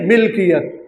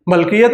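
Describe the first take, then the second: First: The first syllable has an 'i' vowel. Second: The first syllable has an 'a' vowel. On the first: The speaker calls it right. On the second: The speaker calls it wrong. "मलकियत नहीं"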